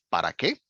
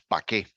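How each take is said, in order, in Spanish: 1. La primera palabra se dice completa, en dos sílabas. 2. La primera palabra se acorta a una sílaba. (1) "rara vez decimos para qué" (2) "sino que decimos pa' qué"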